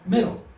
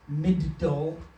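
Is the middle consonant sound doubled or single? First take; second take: single; doubled. First: The middle consonant is pronounced once, smoothly. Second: The middle consonant is pronounced twice, separately. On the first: The speaker calls it right. "we say" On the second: The speaker calls it wrong. "we don't say"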